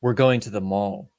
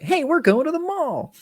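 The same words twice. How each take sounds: First: Said in the usual way. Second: Very high, chirpy sustained call; hammed-up movie line. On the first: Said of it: "when the guy's like". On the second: Imitating the guy announcing the mall trip, hammed-up high chirp. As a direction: imitate him in a silly high, over-eager voice. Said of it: "the way he said it was like".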